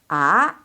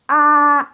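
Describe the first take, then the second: First: The pitch rises from middle to high. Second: The pitch stays high and level. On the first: "第二声阴平, 阳平" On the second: "lurus. Lurus itu tinggi nadanya"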